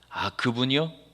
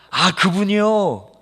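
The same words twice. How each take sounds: First: It sounds reluctant and cool. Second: It sounds glad and warmly recognizing.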